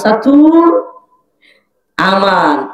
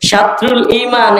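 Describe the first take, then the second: First: The phrase is simplified, sounding like satu aman. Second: The phrase is said in full, with every sound. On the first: This is how the small child says it. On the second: This is how the adult says it.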